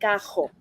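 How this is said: The R is made in the throat. "some of us say cajo"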